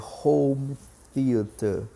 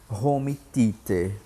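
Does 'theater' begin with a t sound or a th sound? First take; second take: th sound; t sound. First: Theater begins with a soft th sound. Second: Theater begins with a plain t sound. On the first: The speaker calls it right. "A pronúncia do T H que nós não temos no português" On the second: The speaker calls it wrong. "pronúncia dessa expressão incorreta"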